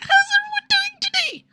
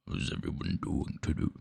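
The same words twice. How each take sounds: First: It is said in a very high pitch. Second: It is said in a very low pitch.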